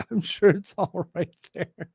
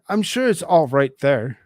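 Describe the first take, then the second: First: Repeating it through laughter; laughing. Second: Said in the usual way. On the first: Real, not acted. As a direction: say it while cracking up.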